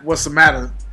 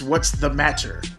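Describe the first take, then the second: First: The phrase is said in a relaxed, casual way. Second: The phrase is said with careful, crisp enunciation. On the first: This is how one talks normally, outside an interview. "it's not" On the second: This is how one code switches for an interview. "You start enunciating"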